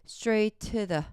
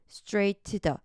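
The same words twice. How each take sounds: Both takes have the same delivery.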